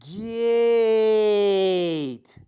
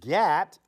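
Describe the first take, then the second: First: The vowel is a long a sound. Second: The vowel is a short a sound. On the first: The speaker calls it right. "it's just going to tell that A to what? Say its name" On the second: The speaker calls it wrong. "So it's not going to say g at"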